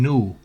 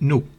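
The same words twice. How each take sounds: First: The vowel is long. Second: The vowel is short. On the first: The speaker calls it right. "es brand new, una U larga" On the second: The speaker calls it wrong. "no es new"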